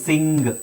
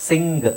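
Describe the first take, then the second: Both takes have the same delivery.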